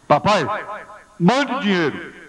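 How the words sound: It is said in a rude, demanding tone.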